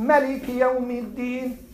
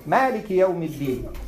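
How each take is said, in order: First: "Maliki" with a short first "a"; short first vowel. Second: "Maliki" as "Maaliki", first "a" held; long first vowel. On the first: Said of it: "So if the Imam is reading". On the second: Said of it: "correct the Imam". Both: Shown as a demonstration.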